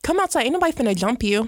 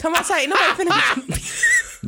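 First: Mock challenge. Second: High-pitched mock call-out throughout; hammed-up challenge. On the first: Host mock-dares someone to come outside, quick taunting challenge. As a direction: throw out the challenge, rattling off the end. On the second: Host repeats the dare for laughs, high hammed-up challenge. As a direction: push the taunt up high to the very end.

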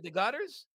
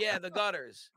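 First: "The gutters?" rising at the end in disbelief; questioning echo. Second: "Yeah, the gutters." falling at the end, matter-of-fact; flat confirmation. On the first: Salesman shocked by a request, repeating "The gutters?" with a rising tune. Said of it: "so I repeated it". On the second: Homeowner confirming to the salesman, "Yeah, the gutters." falling. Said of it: "And he said". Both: Retold or imitated.

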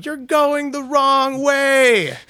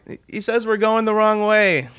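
First: High, loud, drawn-out yell; mock yelling. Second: High-pitched, raised-voice retelling; relayed yell. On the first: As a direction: holler slowly across a highway. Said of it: "they're yelling at him". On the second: Retold or imitated. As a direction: pass on a shouted warning, pitched high. Driver relaying the yelled warning.

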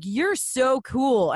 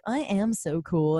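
First: Slow, higher retold compliment; admiring. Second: Slow retold boast, held in; measured, understated self-congratulation; self-satisfied. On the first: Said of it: "they were like". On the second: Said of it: "And I was like".

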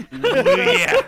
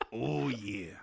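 First: Loud, high wrestler catchphrase; pro wrestler growl. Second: Said in the usual way. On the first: Acted. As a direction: bellow it like a hyped wrestler. Wrestler shades on, cream of the crop.

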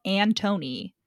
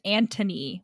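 First: Antony said as "an-TOE-nee"; full long O in Antony, like Tony; Antony spelled out by sound, "toe" in the middle. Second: Anthony said as "AN-tuh-nee"; T for TH in Anthony, short middle vowel; Anthony with a hard T and a reduced O. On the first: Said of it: "going to be nicknamed Tony". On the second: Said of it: "When it's Anthony, when it's spelled Antony". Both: Shown as a demonstration.

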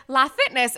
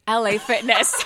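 First: "La Fitness" with LA as one syllable, loud; retold mispronunciation. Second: "L A Fitness" with L and A spelled out, loud; friend's correction. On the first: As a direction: read the letters as the word "la" in "La Fitness". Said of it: "but I said accent". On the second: Retold or imitated. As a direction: say the letters L and A separately in "L A Fitness". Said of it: "You're so dumb. It's L A Fitness".

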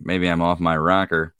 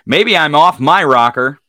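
First: Said in the usual way. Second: Loud, higher, playful; playful exclamation. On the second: Acted. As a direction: belt it out playfully. Repeats it loudly, playful.

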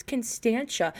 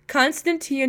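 First: Constantia said as kun-STAN-chuh; corrected Constantia. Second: Constantia said as con-stan-TEE-uh; misread Constantia. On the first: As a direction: correct it softly to Constantia in three syllables, STAN stressed. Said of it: "no, it's". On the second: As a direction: read Constantia out by its spelling. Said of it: "I literally read the address". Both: Retold or imitated.

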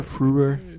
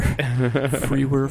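First: Frewer said as froo-er with a lifting end; correcting himself on a podcast, says Frewer as froo-er; correct pronunciation. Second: Frewer said as free-wer, two syllables; stumbling over a name while explaining it on a podcast, says Frewer as free-wer; mispronounced name. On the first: Frewer said cleanly as froo-er, rising. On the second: Frewer drawn out as free-wer. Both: Shown as a demonstration. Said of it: "I have a tough time pronouncing those series of letters".

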